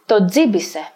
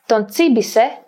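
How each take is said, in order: First: The n is dropped before a dz sound. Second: The n is kept before a ts sound.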